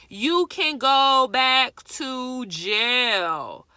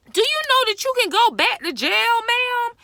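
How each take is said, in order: First: Loud, very slow, drawn-out scolding; real emphatic warning. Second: Loud, high, rapid-fire scolding; real outraged warning. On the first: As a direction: spell it out loudly, stretching every word. Repeats the jail warning slowly. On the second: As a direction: yell it at her as a fast, high-pitched question. Scolding someone, warning of jail. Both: Real, not acted.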